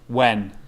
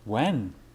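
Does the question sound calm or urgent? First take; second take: urgent; calm. First: The question is asked with strong urgency. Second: The question is asked with little urgency. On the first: The speaker calls it right. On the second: The speaker calls it wrong.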